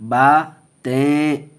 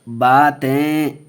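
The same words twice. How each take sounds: Both takes have the same delivery.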